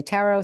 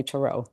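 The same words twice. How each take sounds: First: "tarot" said TAR-oh, stressed up front; "tarot" as TAR-oh, like "tarragon" at the start; TAR-oh pronunciation. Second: "tarot" said tuh-ROH, stressed at the end; "tarot" as tuh-ROH, weight on the second syllable; tuh-ROH pronunciation. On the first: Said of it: "Some people say tarot". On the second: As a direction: say "tarot" with a reduced first vowel, tuh-ROH. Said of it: "some people say tarot". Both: Shown as a demonstration.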